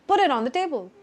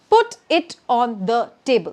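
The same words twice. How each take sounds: First: The words run together with linked sounds. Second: Each word is said separately with clear breaks. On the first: The speaker calls it right. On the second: The speaker calls it wrong.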